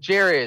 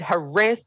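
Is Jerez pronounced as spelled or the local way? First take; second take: as spelled; local way. First: It is pronounced just as it is spelled. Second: It is pronounced the local way, unlike its spelling. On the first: This follows the written spelling. "the way it's spelled" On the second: This is what the locals call it. "How could you get Jerez?"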